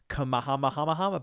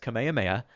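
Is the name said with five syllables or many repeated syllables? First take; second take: many; five. First: The name runs on with many repeated syllables. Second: The name is said with five distinct syllables. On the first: The speaker calls it wrong. "I was like" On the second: The speaker calls it right. "but it's Kamehameha"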